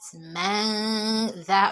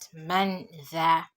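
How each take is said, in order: First: The N sound is hidden and nasalized. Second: The N sound is pronounced clearly. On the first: The speaker calls it right. "I did not pronounce the N sound clearly. So I applied gunna instead" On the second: The speaker calls it wrong. "I did not say that man that"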